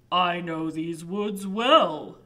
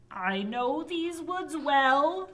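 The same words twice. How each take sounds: First: Slow deep troll voice. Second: High witch voice. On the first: Troll offers help. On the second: Witch offers help. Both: Acted.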